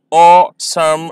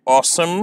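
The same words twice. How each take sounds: First: "awesome" drawn out as aw-some; slow syllables. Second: Said in the usual way. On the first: Shown as a demonstration. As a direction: split "awesome" slowly. ("awesome" धीरे, दो syllable में) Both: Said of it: "इन्हें मैं slowly pronounce करूँगा".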